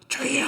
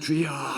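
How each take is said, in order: First: It is shouted out with strong, projected force. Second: It is said in a plain, ordinary voice. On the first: The speaker calls it right. "주여 하면서 이게 쫙 나가야 돼요" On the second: The speaker calls it wrong. "그냥 주여 이게 아니라"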